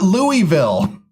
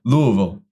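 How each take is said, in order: First: The first part is a clear 'Louis'. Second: The word is mumbled and run together. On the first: The speaker calls it wrong. "it's not Louisville. Who's Louis?" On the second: The speaker calls it right. "I feel like I'm like mumbling"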